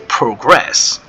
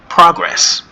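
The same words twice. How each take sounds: First: The stress is on the second syllable. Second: The stress is on the first syllable. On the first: It is used as a verb. "it's a verb" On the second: It is used as a noun. "This is a noun"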